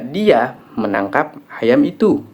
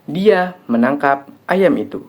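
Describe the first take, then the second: First: The stress falls on the word 'itu'. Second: The stress falls on the word 'ayam'. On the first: It was that chicken that was caught, not this one. "Yang ditangkap adalah ayam itu, bukan ayam ini" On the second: What was caught was a chicken, not a goat. "Yang ditangkap adalah ayam, bukan kambing"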